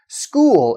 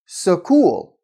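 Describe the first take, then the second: First: The s and k are said together. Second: A vowel is inserted between s and k. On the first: The speaker calls it right. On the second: The speaker calls it wrong.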